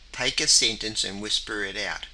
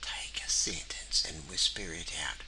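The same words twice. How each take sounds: First: The sentence is said in a normal voice. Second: The sentence is whispered very quietly.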